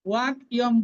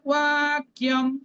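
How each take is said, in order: First: The word is broken into two separate parts. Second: The word is said smoothly as one joined unit. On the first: The speaker calls it wrong. "ওয়াক ইয়ম বলবো না, তাহলে ভেঙে ভেঙে হয়ে যাবে, সংযুক্ত থাকবে না" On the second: The speaker calls it right. "তাহলে শুদ্ধ কোনটা? ওয়াক্যম"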